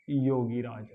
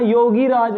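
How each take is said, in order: First: योगी राज with short "i" in gi; योगी राज as one word, short second vowel; correct pronunciation. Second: योगी राज with a long "ee" in gi; योगी राज with stretched second syllable; mistaken pronunciation. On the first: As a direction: say योगी राज as "yo-gi-raaj", joined. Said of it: "जो शुद्ध शब्द है". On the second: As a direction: say योगी राज as "yo-gee raaj". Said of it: "योगी राज नहीं होता". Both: Shown as a demonstration.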